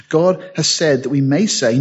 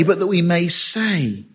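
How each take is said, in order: First: Said in the usual way. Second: But that we may say, slow and weighty; stress on say. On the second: Shown as a demonstration. Preacher at the pulpit, slowing down, pressing every word. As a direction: lean on say, slow and final. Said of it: "not that we may know".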